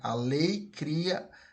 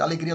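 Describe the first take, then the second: First: The phrase is said slowly, words kept apart. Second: The phrase is said fast, words run together.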